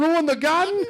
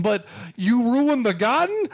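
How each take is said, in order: First: Much higher cartoon wiseguy squeal, rising on garden; exaggerated Brooklyn tough guy. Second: Higher, slow indignant Brooklyn wiseguy, rising on garden; mock Brooklyn tough guy. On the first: Mocking the movie's Brooklyn character, over-the-top cartoon squeal. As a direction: push the outrage to a cartoon peak. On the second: Mocking the movie's Brooklyn character, slow indignant wiseguy. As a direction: drag out the outrage over garden. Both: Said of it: "him going".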